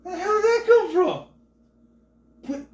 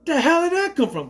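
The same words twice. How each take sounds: First: Much higher, loud squeal of shock; plain; stunned disbelief. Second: High, loud baffled cry; plain; shocked. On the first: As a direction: jump out of your seat in disbelief. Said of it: "and I was just like". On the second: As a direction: blurt it out in disbelief. Shocked reaction to the scene. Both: Retold or imitated.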